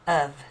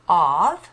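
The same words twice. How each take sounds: First: The vowel is a reduced 'uh' sound. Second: The vowel is an open 'ah' sound. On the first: The speaker calls it right. "we're saying uh" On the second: The speaker calls it wrong. "instead of ah"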